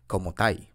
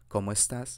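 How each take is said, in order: First: The ending is cut short, ending in an i sound. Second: The full ending of the phrase is pronounced. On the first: "in Chile, they usually cut the last word" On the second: "instead of saying"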